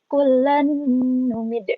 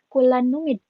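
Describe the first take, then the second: First: The nasal n is held long and doubled. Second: The nasal n is short, not held. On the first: The speaker calls it right. "dimasukkan dengan dengung dan ditekan itu artinya kayak ada tasjidnya" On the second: The speaker calls it wrong.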